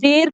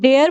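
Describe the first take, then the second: First: The vowel stays plain with no glide. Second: The vowel glides through a 'y' sound. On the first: The speaker calls it wrong. "मैं डेर तो नहीं बोल रही" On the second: The speaker calls it right. "मैं डेयर बोल रही हूँ ना"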